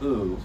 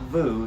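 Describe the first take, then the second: First: The word starts with a bare vowel. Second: The word starts with a v sound. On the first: The speaker calls it right. "it's just u" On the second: The speaker calls it wrong. "not vu"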